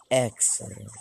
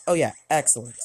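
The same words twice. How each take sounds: First: Low, drawn-out excellent; lightly voiced scheming old boss; Mister Burns impression. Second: Said in the usual way. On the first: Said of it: "do an impression of his classic". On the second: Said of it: "what's that word that he says".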